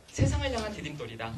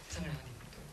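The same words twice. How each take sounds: First: Said in the usual way. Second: Soft, lower repeat of 세상을 향한 디딤돌; quiet echo. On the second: Shown as a demonstration. Lecturer echoing his motto to fathers, softly. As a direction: let the phrase sink in softly.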